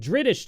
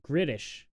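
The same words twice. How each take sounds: First: Said in the usual way. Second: "Gritish", hard G where the B would be. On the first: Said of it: "but Gritish". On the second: Shown as a demonstration. Streamer trying out a joke word, Gritish with a G. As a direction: swap the B of British for a G: "Gritish". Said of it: "British doesn't work, but Gritish".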